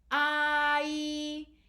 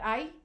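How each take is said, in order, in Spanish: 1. Ambas vocales se oyen claramente y de forma distinta. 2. Las dos vocales se funden en un solo sonido deslizante. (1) "se deben pronunciar ai" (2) "no se debe pronunciar ay, porque ahí no se entiende claramente cuáles son las vocales"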